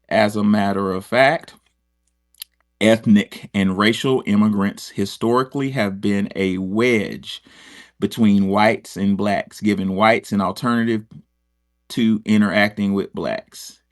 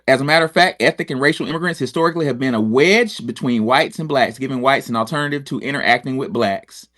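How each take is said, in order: First: It is read slowly and deliberately. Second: It is read at a normal pace.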